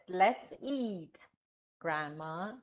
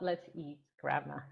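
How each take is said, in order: First: There is a pause before Grandma. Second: There is no pause before Grandma.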